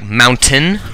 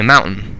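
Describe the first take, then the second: First: The t sound is pronounced clearly. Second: The t sound is muffled and unclear. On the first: This is the typical American way. "Most Americans will probably say like mountain" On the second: This is the speaker's Utah accent. "With my accent, though, I naturally say mountain... kind of a little less clear on that"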